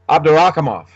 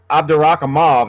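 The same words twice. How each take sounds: First: The name ends with an f sound. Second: The name ends with a v sound. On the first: The speaker calls it right. "that's like a double F or just an F" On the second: The speaker calls it wrong. "it looks like uh, Mauve, but it's not"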